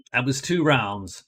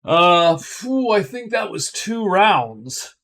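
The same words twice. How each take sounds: First: Said in the usual way. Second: Higher, slower voice, exhaling with relief; relieved phew. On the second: Real, not acted. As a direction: let the tension go with a phew. Relief after a tense round.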